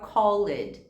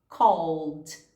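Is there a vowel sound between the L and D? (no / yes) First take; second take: yes; no. First: An extra vowel is inserted between L and D. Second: The L runs straight into the D sound. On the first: The speaker calls it wrong. "Cuidado para não colocar o som de I entre esse L e D" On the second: The speaker calls it right. "É do L direto para o D"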